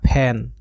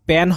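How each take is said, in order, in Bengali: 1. p উচ্চারিত হয় বাতাসের ঝলক সহ। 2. p উচ্চারিত হয় বাতাসের ঝলক ছাড়া।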